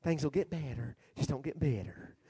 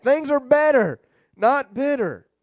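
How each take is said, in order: First: Hushed, low preacher impression; Joel Osteen. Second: Emphatic restatement. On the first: Quoting the preacher's slogan, very soft mock soothing voice. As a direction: imitate a softly soothing TV preacher. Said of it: "I think Joel Osteen said that". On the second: Real, not acted. Preacher affirming the slogan to congregation, emphatic and loud. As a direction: proclaim it firmly to the room.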